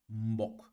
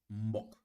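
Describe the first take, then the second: Both takes have the same delivery.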